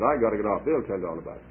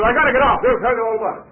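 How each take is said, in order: First: Said in the usual way. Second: High, loud announcement to a crowd; announcing loudly. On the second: Retold or imitated. Old preacher telling the whole coach, loud and high. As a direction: call it out to the whole coach before stepping off.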